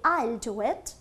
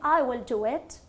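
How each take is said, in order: First: Will is shortened and joined to I. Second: Will is said as a full separate word. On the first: "we usually use contraction, short forms" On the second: "instead of saying"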